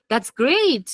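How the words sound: It is said in an excited, enthusiastic tone. The speaker is truly happy for the listener. "Excited English, right? I'm very excited"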